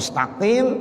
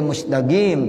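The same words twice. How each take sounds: First: Standard "mustaqim", no g; standard qaf. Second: Egyptian "mustaqim", said as musdagim; hard g for the qaf in "mustaqim"; Egyptian dialect. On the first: Teacher giving everyone else's form, "mustaqim" with qaf. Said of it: "orang-orang mustaqim". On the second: Teacher imitating Egyptians, "mustaqim" in Egyptian dialect. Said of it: "itu dialeknya seperti itu". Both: Shown as a demonstration.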